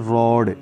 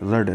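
First: The vowel is an open 'aw' sound. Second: The vowel is a short 'uh' sound. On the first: The speaker calls it right. "इसको पढ़ते हैं रॉड" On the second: The speaker calls it wrong. "कुछ लोग इसको रड भी पढ़ते हैं। रड नहीं होता है"

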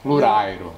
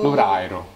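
No difference in how they are said.

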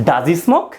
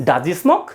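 No difference in how they are said.

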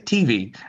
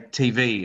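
First: The stress is on the first syllable. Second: The stress is on the second syllable. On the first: This is the American way of saying it. "they say TV and it like emphasizes the T" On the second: This is the Australian way of saying it. "we say TV and we emphasize the V"

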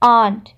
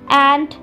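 First: The vowel is said with a British accent. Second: The vowel is said with an American accent. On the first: "whereas in Britain, it becomes more of a sound" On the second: "Americans pronounce their A's as A"

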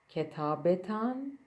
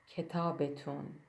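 First: The last syllable has an 'a' vowel. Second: The last syllable has an 'oo' vowel. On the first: This is the standard written form. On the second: This is the everyday colloquial form.

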